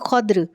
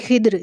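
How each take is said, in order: First: An a vowel, then no vowel before r. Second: An i vowel, then no vowel before r. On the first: "ख़ा के ऊपर ज़बर और दौद के ऊपर जिज़म" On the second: "ख़ा के नीचे ज़ेर और दौद के ऊपर जिज़म"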